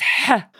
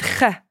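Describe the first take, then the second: First: The h is pushed hard from the throat. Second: The h is a light, plain breath. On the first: The speaker calls it right. "You have to put your hand on your throat and push a bit" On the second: The speaker calls it wrong. "So you said ha"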